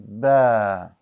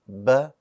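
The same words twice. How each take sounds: First: The vowel is said long. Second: The vowel is said short. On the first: "you're going to extend it" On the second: "instead of saying just ba"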